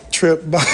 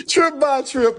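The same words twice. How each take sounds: First: Loud, playful farewell call; calling out goodbye. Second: High calling goodbye. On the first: Livestreamer loudly telling his cohost Trip goodbye. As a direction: shout the goodbye to him. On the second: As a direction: call his name up high. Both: Real, not acted.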